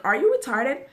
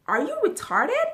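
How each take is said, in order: First: Louder repeat. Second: Angry question. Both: Retold or imitated. That's what I'm asking her.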